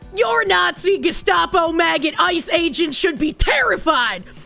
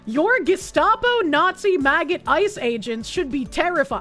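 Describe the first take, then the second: First: It is read in a put-on character voice. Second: It is read in his normal voice.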